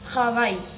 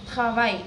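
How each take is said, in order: Both takes have the same delivery.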